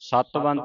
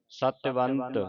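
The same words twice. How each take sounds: First: There is no vowel after the t. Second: A short i vowel follows the t. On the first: The speaker calls it wrong. "ਸਤਵੰਤ ਨਹੀਂ ਕਹਿਣਾ ਇਹਨੂੰ" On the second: The speaker calls it right. "ਸਿਹਾਰੀ ਲਾ ਕੇ ਉਚਾਰਨ ਹੋਣਾ ਹੈ"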